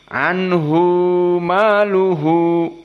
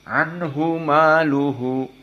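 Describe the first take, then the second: First: The final vowel of 'anhu' is held longer. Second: The final vowel of 'anhu' is short. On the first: "dijadikan dua harokat" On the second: "semua qurra yang sepuluh anhu maluhu seperti itu"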